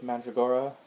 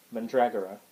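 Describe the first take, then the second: First: Mandragora as MAN-druh-GOR-uh; mispronounced Mandragora. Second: Mandragora as man-DRAG-uh-ruh; corrected Mandragora. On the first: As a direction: stress the first and third syllables of Mandragora. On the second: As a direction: stress DRAG in Mandragora, short unstressed ending. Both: Real, not acted.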